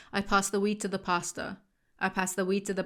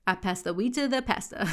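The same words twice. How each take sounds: First: American accent. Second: Pastor as "pah-stuh" in a British accent; British reading with a flat "e" in pastor. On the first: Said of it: "that don't count 'cause it's an American accent". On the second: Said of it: "American accent". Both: Shown as a demonstration.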